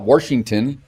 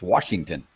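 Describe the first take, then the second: First: An r sound is added after the first vowel. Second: No r sound is added after the first vowel. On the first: The speaker calls it wrong. "It's not Washington" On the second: The speaker calls it right. "It's Washington"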